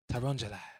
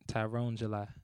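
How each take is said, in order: First: The name is said quickly, run together. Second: The name is said at normal speed.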